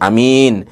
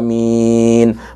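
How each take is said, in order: First: The first vowel is short, the second long. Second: Both vowels are long with a single m. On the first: It means a trustworthy person. The speaker calls it wrong. "A-nya pendek, min-nya panjang" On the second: It means grant it. The speaker calls it right. "A-nya dibaca panjang, minimal dua harokah, minnya dibaca panjang empat sampai enam harokah"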